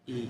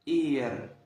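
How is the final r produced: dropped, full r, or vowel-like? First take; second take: dropped; full r. First: The word ends on the vowel, with no r. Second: The word ends with a clear r sound. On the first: This is how natives say it in fast speech. "بينطقوا بسرعة... بينطق أول حرف بس" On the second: This is the form taught to beginners. "في الأول بنقوله إير... لشخص مثلا لسه بادئ بالتعلم"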